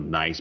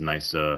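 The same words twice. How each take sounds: First: It ends cleanly on the final consonant. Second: An extra vowel is added after the last consonant.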